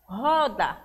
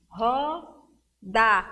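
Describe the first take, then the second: First: Said in the usual way. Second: "roda" split as ro, pause, da; two separate beats on "roda"; syllable by syllable. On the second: Shown as a demonstration. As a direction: count out "roda" with a gap in the middle. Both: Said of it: "quer saber o número de sílabas".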